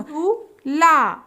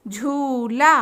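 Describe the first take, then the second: First: झूला stretched very slowly; slow drawn-out word. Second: Said in the usual way. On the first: Shown as a demonstration. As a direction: draw out झूला syllable by syllable. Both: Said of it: "तीन वर्ण वाले शब्द".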